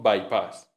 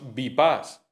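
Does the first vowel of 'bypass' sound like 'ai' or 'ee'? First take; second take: ai; ee. First: The first vowel is an English-like 'ai' sound. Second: The first vowel is a plain 'ee' sound. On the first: The speaker calls it right. "decimos bypass" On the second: The speaker calls it wrong. "No decimos bypass"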